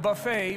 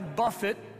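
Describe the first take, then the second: First: It is said like 'boo-fay', stressed last. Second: It is said like 'buff-it', stressed first. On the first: A spread of food. The speaker calls it wrong. "not buffet" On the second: To strike or discipline. The speaker calls it right. "I buffet"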